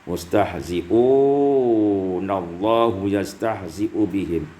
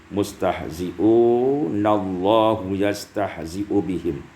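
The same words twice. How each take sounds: The two takes are said the same way.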